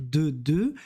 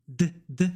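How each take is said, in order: First: "de" with a full, sounded E. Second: "d" cut short, stopped on the consonant; blocked final D. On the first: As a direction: say "de" as at the start of "demander". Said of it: "en début de mot, demander par exemple". (« de » avec le E bien prononcé) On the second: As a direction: say "d" as a word ending, no full vowel. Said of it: "je bloque". (« d » bloqué, comme un soukoun) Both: Shown as a demonstration.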